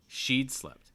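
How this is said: The stress falls on the first word. "I'm stressing the contraction"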